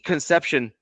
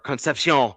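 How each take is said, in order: First: The name is pronounced the plain English way. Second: The name is pronounced the French way.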